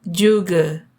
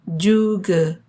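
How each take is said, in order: The two takes are said the same way.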